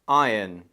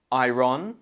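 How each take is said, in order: First: "iron" as EYE-un, falling; British "iron", eye-un; correct iron. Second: "Iron" as eye-RON with a rising end; wrong iron. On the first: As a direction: say "iron" with silent r and weak ending. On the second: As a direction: mispronounce "Iron" with a sounded r and full o. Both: Shown as a demonstration. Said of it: "Option B".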